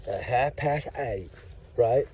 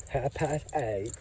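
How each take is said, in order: First: Imitating her. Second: Soft, slow imitation of the woman; imitating her. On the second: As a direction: mimic her words quietly and slowly. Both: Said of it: "that's exactly how she said".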